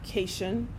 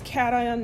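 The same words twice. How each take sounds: First: It sounds like the end of 'vacation'. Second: It is said as 'cat' plus 'ion'. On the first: The speaker calls it wrong. "not cation, which I guess you know could be short for vacation" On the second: The speaker calls it right. "it's cation"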